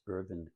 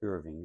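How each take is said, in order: First: The name ends with a plain 'n' sound. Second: The name ends with an 'ng' sound. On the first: The speaker calls it right. "It's Irvin Kahn" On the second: The speaker calls it wrong. "I sometimes mispronounce it Irving, and it's not"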